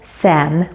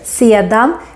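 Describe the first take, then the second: First: The word is shortened to one syllable. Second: The word is said in two full syllables. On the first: "becomes sen when we speak faster" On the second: "sedan becomes sen when we speak faster"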